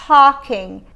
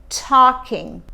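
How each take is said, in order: Both takes have the same delivery.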